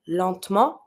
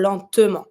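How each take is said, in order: First: LENTEMENT as two syllables, "lent-ment"; skipped E. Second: LENTEMENT in three syllables, "len-te-ment"; lightly pronounced E. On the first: Teacher contrasting two options, "lentement" with the E dropped. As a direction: run the T of "lentement" straight into the M. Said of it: "people tend to skip the E". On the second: Teacher contrasting two options, "lentement" with the E sounded. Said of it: "you have to pronounce it a little bit". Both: Shown as a demonstration.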